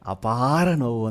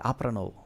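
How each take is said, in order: First: The vowel length in the first word is standard. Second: The vowel length in the first word is shifted. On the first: It means unbearable pain. The speaker calls it right. "ಆಮೇಲೆ ಗೊತ್ತಾಯಿತು ನನಗೆ ಅಪಾರ ನೋವು ಅಂತೇಳಿ" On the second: The meaning could not be understood. The speaker calls it wrong. "ಅವರು ಒಂದು ದೀರ್ಘ change ಮಾಡಿದ್ದಕ್ಕೆ ನನಗೆ ಗೊತ್ತಾಗಲಿಲ್ಲ"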